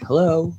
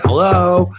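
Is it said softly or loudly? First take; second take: softly; loudly. First: It is said softly and gently. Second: It is said more loudly and forcefully.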